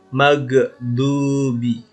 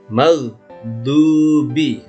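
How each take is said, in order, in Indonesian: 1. Bunyi gh dipantulkan dengan gema. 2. Bunyi gh dipotong pendek. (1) "Salahnya begini. Maghdubi dipantulnya" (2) "seperti mag stop ini"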